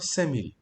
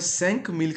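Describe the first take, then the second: First: The final consonant of five is dropped. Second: The final consonant of five is pronounced. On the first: The speaker calls it right. "पढ़ूंगा सेमिल" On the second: The speaker calls it wrong. "सैंक मील की जगह"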